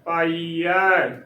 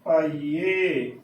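First: The word ends with an 'ai' vowel. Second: The word ends with an 'e' vowel. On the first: The speaker calls it right. "ਐੜੇ ਨੂੰ ਦਲਾਵਾਂ ਐ" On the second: The speaker calls it wrong. "ਪਾਈਏ ਵੀ ਗਲਤ ਉਚਾਰਨ ਹੈ"

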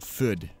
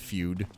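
First: The vowel is said without a 'y' glide, 'food'. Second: The vowel is said with a 'y' glide, 'fyood'. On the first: "and I would pronounce it food" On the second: "I'd see the words family feud or something, or just feud"

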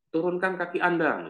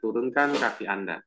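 First: It is said firmly, in a high tone. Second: It is said gently, in a low tone. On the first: It is a strict order. "Perintah secara tegas" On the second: It is a soft request. "perintah secara lembut"

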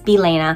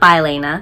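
First: The middle vowel sounds like 'eh'. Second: The middle vowel sounds like 'ee'. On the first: The speaker calls it right. "I am assuming it's Bilena" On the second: The speaker calls it wrong. "and not Bilena"

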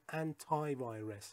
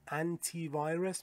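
First: The word 'anti' ends with an 'eye' sound. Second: The word 'anti' ends with an 'ee' sound.

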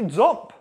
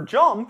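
First: The first sound is made at the ridge. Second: The first sound is made behind the ridge.

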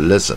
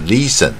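First: The first vowel is cut short. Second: The first vowel is drawn out long. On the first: The speaker calls it right. "是listen" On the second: The speaker calls it wrong. "而不是listen"

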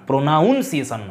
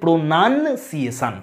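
First: The second syllable sounds like 'noun'. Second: The second syllable sounds like 'nun'. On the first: The speaker calls it wrong. "নয়" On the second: The speaker calls it right. "যদি নাউন হয়ে যায় তখন হবে প্রোনাউন্সিয়েশন"

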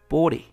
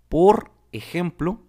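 First: The r runs straight into the e. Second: The r and the e are kept separate.

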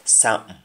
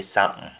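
The two takes are said the same way.

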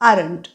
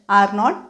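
First: It is said as one contracted word. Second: It is said as two full words. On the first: "they आरंट giving असं म्हणू शकतो" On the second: "they आर नॉट गिव्हिंगच्या ऐवजी"

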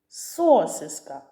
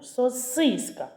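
First: The stress is on the first syllable. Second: The stress is on the middle syllable. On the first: The speaker calls it wrong. "Звук О. Спробуй стати головним" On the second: The speaker calls it right. "голосний І. Спробуй стати головним"

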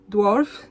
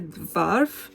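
First: The word is pronounced in the English way. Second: The word is pronounced with a Polish-style reading. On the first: The speaker calls it right. "Dwarf, nie dwarf" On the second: The speaker calls it wrong. "nie dwarf"

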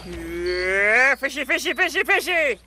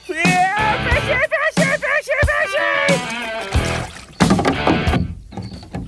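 First: The calling is quiet. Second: The calling is yelled loudly.

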